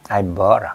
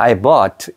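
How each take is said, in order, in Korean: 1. 마지막 t는 터뜨리지 않고 막아 둬요. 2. 마지막 t는 또렷한 파열음과 함께 터져요. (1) "이건 파열음으로 남겨야 되는 거지" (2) "이렇게 트가 발음 되잖아요"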